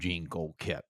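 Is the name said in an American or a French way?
American. The name is said with American pronunciation. This is how locals adapted the name. "in America they called him"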